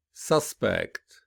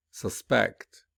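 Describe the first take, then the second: First: "Suspect" with the first syllable stressed, falling. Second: "suspect" with weak start, strong second syllable; stress on second syllable. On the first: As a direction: noun form, lean on the start of "Suspect". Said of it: "the noun will be". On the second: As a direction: verb form, lean on the end of "suspect". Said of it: "whereas the verb will be". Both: Shown as a demonstration.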